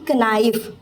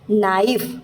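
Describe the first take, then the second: First: The word starts with a k sound. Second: The word starts with an n sound. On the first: The speaker calls it wrong. "ना कि कनाइफ" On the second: The speaker calls it right. "सिर्फ नाइफ"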